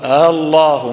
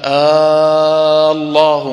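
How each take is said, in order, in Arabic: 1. الهمزة الثانية تُسهَّل، ولا تُطال. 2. تُمَدّ الحركة الأولى مدّاً طويلاً جداً.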